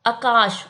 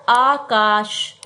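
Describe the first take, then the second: First: Said in the usual way. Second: आकाश said very slowly with a long आ at the start; drawn-out correct pronunciation. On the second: Shown as a demonstration. Teacher slowly modelling the right way to say आकाश. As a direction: stretch आकाश out, long open आ first. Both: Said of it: "आकाश नहीं होता".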